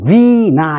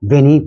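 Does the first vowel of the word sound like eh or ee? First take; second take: ee; eh. First: The word is said like vee-nigh. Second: The word is said like veh-nee. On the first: This is the anglicized pronunciation. "영어식 발음에서" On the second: This is the pure Latin pronunciation. "순수한 라틴식 발음하는"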